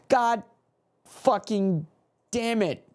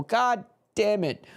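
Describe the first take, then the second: First: Stamp every word with a pause between; a fan spelling out his fury word by word; spaced-out curse. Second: Higher, bitter "God damn it"; a fan cursing the conceded goal; frustrated curse. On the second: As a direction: curse the goal in one breath. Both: Real, not acted.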